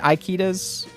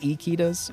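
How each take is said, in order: First: The letter I sounds like 'eye'. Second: The letter I does not sound like 'eye'. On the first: The speaker calls it wrong. "I was saying Ikitas. I was pronouncing the I's and I" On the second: The speaker calls it right. "It's Ikitas"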